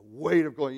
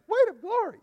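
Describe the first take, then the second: First: The phrase is said heavily and with weight. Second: The phrase is said lightly and casually. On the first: The speaker calls it right. "That's a weight" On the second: The speaker calls it wrong. "You can't say it like that"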